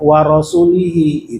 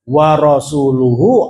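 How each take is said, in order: First: The ending is said with 'i' vowels. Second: The ending is said with 'u' vowels. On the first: God is free of the idolaters and of His Messenger. The speaker calls it wrong. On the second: God and His Messenger are both free of the idolaters. The speaker calls it right.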